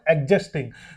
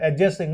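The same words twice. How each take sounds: First: The D sound is clearly pronounced. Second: The D sound is left out. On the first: The speaker calls it wrong. "not adjusting" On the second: The speaker calls it right. "the D is silent here"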